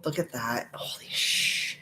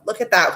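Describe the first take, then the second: First: Hushed, awed whisper; slow, drawn-out whisper on the swear; whispering to herself. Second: Said in the usual way. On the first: Real, not acted. Streamer amazed by the color, whispering to herself. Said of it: "I'm whispering to myself".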